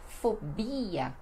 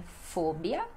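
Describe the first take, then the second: First: "fobia" as fo-BI-a, stress on BI; Portuguese pronunciation. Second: "fobia" as FO-bia, stress on FO; Spanish pronunciation. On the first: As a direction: draw out BI in "fobia". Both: Shown as a demonstration. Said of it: "que no português fica".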